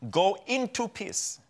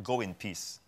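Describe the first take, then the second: First: Slow, higher, with "into" drawn out; stress on INTO. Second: Said in the usual way. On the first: Shown as a demonstration. Preacher correcting a translation from the Greek, stress on "into". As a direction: lean hard on "into", unhurried. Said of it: "It's go into the realm of peace". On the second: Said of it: "it is not go in peace".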